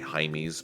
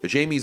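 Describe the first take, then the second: First: The name is said the Spanish way, like Jaime. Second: The name is said the English way, like Jamie. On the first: "it's actually Jaime's" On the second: "since we're Americans here, I think primarily we'll, we'll pronounce it Jamie"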